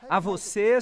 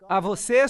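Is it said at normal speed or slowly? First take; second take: slowly; normal. First: It is said more slowly. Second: It is said at normal speed.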